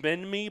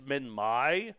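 First: The name ends with an 'ee' sound. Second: The name ends with an 'eye' sound. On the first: "I've always pronounced it Minmi" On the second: "but apparently it's Minmai"

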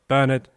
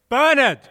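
First: The word is said loudly. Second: The word is said very loudly.

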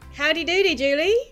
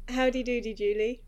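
First: It is said with over-the-top, exaggerated energy. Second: It is said with slightly toned-down energy.

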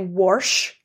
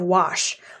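First: The word is said with an r sound. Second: The word is said without an r sound. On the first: The speaker calls it wrong. "I hate when people say wash" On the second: The speaker calls it right. "There's no fucking R in the word"

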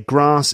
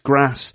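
First: The A vowel is long. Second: The A vowel is short. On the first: "I'd say grass" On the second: "in the North it's grass"

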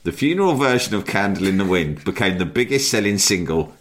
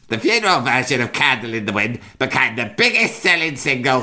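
First: It is read in the speaker's ordinary voice. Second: It is read in an imitated put-on voice. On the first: "I'm not going to do impression at this point" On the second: "I'm going to do it. I can't resist"

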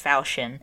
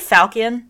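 First: The word is said in a French-like way. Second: The word is said in a non-French way. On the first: The speaker calls it wrong. "I've heard it pronounced falchion, and I think that's stupid, and I think it's a French thing" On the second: The speaker calls it right. "I'm going to say falchion, because that's, in my mind, how it sounds best"

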